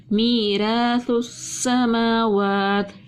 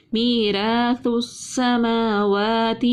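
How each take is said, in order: First: میراث السماوات repeated slowly, light sin; Quranic recitation. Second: میراث السماوات drawn out slowly, sin kept thin; Quranic recitation. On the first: Tajweed teacher repeats the phrase, slow measured recitation. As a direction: chant میراث السماوات again with a thin sin. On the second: Tajweed teacher recites for students, slow and measured. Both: Shown as a demonstration. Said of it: "سین کو ہم نے باریک پڑھا".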